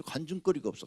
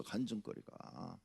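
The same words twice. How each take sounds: First: Said in the usual way. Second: Much softer, slow repeat of 간증거리가; a quiet afterthought echo of 간증거리가; fading echo. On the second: Shown as a demonstration. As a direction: let 간증거리가 drop away softly and slowly.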